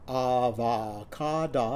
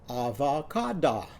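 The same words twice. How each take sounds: First: The word is said slowly. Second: The word is said quickly. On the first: "Say that after me" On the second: "and then speed it up"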